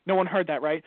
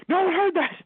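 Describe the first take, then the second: First: Said in the usual way. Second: High, loud mock panic; hammed-up alarmed shout; panicked yell. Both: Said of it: "And I'm like".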